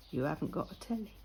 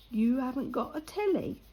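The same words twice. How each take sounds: First: Low, quick, muted echo of disbelief; quiet disbelief. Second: Imitated disbelief, pitched up into a question; incredulous repeat. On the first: Retold or imitated. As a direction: repeat it low and fast, taken aback. Retelling the lad's disbelief. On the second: Retelling the lad's louder disbelief.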